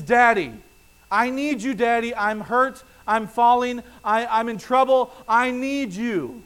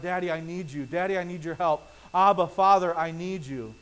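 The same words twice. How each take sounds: First: Put-on loud, high, pleading little child's cry; child crying out for daddy. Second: Soft, humble plea to Father; quiet prayerful plea. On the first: Toddler who stubbed her toe, crying out to daddy, loud and pleading. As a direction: call out like a hurt toddler needing her father. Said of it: "The thing that she would cry out is". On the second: Retold or imitated. Believer in prayer calling out to God, soft and humble. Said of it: "for them to cry out".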